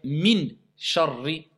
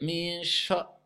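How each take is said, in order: First: The n is pronounced clearly without nasal hiding. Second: The n is hidden in a nasal sound. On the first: The speaker calls it wrong. "On ne va pas appliquer al-ikhfa. ... on va dire" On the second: The speaker calls it right. "Au lieu de dire"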